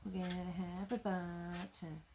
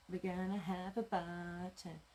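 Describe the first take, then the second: No difference in how they are said.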